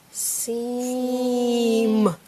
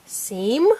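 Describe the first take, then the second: First: SEAM held long on every sound; stretched out. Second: SEAM short, with a rise; said fast. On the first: Teacher sounding out a word for a child, stretched out. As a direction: draw SEAM out slowly. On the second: Teacher blending the sounded-out word, said fast. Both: Shown as a demonstration.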